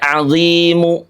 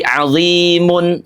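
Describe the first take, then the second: First: The final vowel is pronounced fully and clearly. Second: The word ends with a full vowel plus n. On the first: "Tidak azimu" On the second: "apalagi azimun, tidak"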